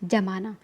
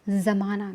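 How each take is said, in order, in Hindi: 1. पहला व्यंजन सादी j ध्वनि है। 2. पहला व्यंजन गूंजती हुई z ध्वनि है। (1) "अगर नुक्ता नहीं होता तो हम क्या कहते हैं" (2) "इसके नीचे नुक्ता लगा हुआ है, तो इसका उच्चारण कैसे होगा"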